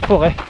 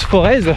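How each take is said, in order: First: The word ends in a vowel, no z sound. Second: The word ends with a pronounced z sound. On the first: The speaker is a local. The speaker calls it right. "Ceux qui habitent ici disent le Forêt" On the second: The speaker is not from the area. The speaker calls it wrong. "À tous ceux qui disent Forez, eh ben vous n'êtes pas des Foraisiens"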